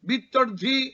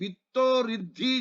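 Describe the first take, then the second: First: The two words are joined into one unit. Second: The two words are split, adding a syllable. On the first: The speaker calls it right. "বিদ্ধর্ধি একসঙ্গেই।" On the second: The speaker calls it wrong. "রিটা যদি বিত্ত ঋদ্ধি যদি বলি, তাহলে একটা অক্ষর বেড়ে"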